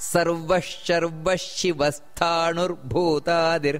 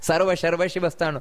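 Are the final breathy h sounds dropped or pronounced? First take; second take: pronounced; dropped. First: The final breathy h sounds are clearly pronounced. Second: The final breathy h sounds are left out. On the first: The speaker calls it right. "ಸ್ಪಷ್ಟ ಉಚ್ಚಾರಣೆ ಬರಬೇಕು ... ಹೀಗೆ ಬರಬೇಕು" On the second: The speaker calls it wrong. "ಈ ರೀತಿ ಹೇಳಿದ್ರೆ ತಪ್ಪದು"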